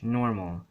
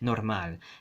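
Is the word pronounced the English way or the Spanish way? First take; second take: English; Spanish. First: It is pronounced the English way. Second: It is pronounced the Spanish way.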